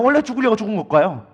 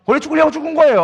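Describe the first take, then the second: First: Said in the usual way. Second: 거예요 said higher and louder, falling hard; firm emphatic answer. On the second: Shown as a demonstration. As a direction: answer it with full force, 거예요 landing down. Emphatic answer to own question.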